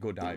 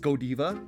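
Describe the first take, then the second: First: The name is pronounced the American way. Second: The name is pronounced the French way. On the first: "when it turned into an American brand, like they started calling it Godiva" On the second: "I think in French, it's Godiva"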